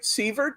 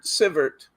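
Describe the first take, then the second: First: The first vowel is a long I sound. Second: The first vowel is a short I sound. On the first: "Long I" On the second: "short I"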